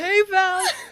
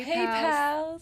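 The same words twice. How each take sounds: First: It is said in a plain everyday voice. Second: It is said in a put-on sexy voice.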